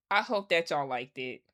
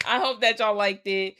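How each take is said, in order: First: Said in the usual way. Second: A perkier hopeful re-take; upbeat retry. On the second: Acted. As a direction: sell the wish with fresh cheer. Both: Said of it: "Y'all probably hated this video".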